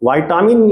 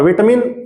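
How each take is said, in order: First: It is pronounced the American English way. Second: It is pronounced the British English way. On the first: "बोला जाता है American में" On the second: "बोलता है British में"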